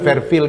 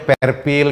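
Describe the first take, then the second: First: The word starts with an F sound. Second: The word starts with a P sound. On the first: The speaker calls it right. "bukan Fairfield gitu" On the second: The speaker calls it wrong. "Ada hotel namanya Perpil gitu"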